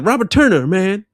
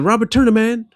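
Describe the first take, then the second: First: A short break comes before the word man. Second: The words run together with no break. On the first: "Normally there's a little" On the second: "There was literally no break"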